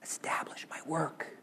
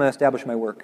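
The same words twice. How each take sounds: First: It is said in a soft whisper. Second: It is said in a flat, bored way. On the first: "in a little whisper" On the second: "He doesn't say it in kind of a boring"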